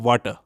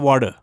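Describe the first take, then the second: First: It is said in a British accent. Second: It is said in an American accent. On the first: "British इस same word को बोलेंगे" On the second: "American इस word को बोलेंगे"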